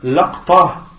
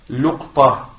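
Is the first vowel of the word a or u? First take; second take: a; u. First: The first vowel is an open a sound. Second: The first vowel is a rounded u sound. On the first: "Le premier c'est laqta bi fath al-lam" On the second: "le quatrième c'est luqta qui est bi dhammi al-lam"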